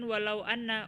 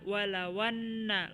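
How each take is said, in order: First: The hamza is voiced, with a break before anna. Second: The hamza is dropped, running straight into anna. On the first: The speaker calls it wrong. "bukan walau anna" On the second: The speaker calls it right. "walawanna langsung"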